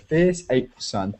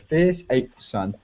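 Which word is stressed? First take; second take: fierce; fierce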